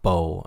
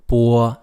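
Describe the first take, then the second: First: The vowel is said like an English vowel. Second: The vowel is said like a Chinese vowel. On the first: The speaker calls it wrong. "not bo" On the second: The speaker calls it right. "but 波"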